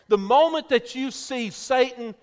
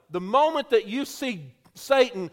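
No difference in how they are said.

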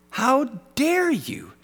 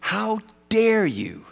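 First: Much higher, slower mock indignation; pitched-up "How dare you" with a stretched "dare"; higher, hammed-up outrage. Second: Slow outraged how dare you; drawn-out "How dare you?" with weight on "dare"; indignant rebuke, slow. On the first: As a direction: push "dare" up high and slow. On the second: Retold or imitated. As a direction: stretch out "dare" in mock outrage. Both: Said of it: "I would have said this".

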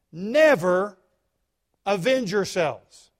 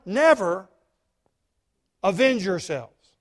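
First: "never" 강조; stress on never. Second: NEVER said louder, pulled apart from the rest; stress on NEVER. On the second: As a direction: lean hard on "Never", then pause. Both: Shown as a demonstration. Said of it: "You see the word never?".

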